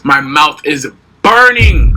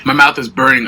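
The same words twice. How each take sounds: First: Slow, louder, mouth on fire; mouth burning from spicy food. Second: Said in the usual way. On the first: Real, not acted. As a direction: drag it out through spicy heat. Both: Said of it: "but I got noodles".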